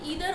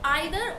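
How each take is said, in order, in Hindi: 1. पहला स्वर 'ee' जैसा बोला जाता है। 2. पहला स्वर 'eye' जैसा बोला जाता है। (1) "दोनों ही प्रोनाउंसिएशन करेक्ट है" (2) "आइदर और नाइदर को हम ईदर और नीदर भी प्रोनाउंस करते हैं"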